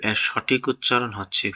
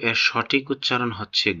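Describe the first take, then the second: No difference in how they are said.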